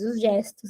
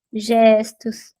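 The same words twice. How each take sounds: First: Said in the usual way. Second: Whispered. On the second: Shown as a demonstration. Teacher whispers "gestos" to the class to show the gestures, whispered.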